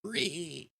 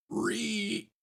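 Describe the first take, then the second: First: High squealing grunt, second try; zombie pigman squeal. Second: High squealing pig grunt, quickly cut off; zombie pigman squeal. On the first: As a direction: squeal like a pig zombie again. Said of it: "I always sound like a zombie pigman". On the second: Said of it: "let's see if I can give a good". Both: Shown as a demonstration.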